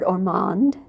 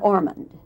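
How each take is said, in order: First: The name is said in a British way. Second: The name is said in an American way.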